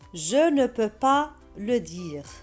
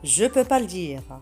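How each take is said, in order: First: It is said at a normal, careful pace. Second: It is said quickly, with the ne dropped.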